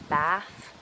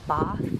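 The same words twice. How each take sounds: First: The vowel is made further forward in the mouth. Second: The vowel is made far back in the mouth. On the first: "as opposed to" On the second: "We also push a lot of our vowels quite far back in the mouth"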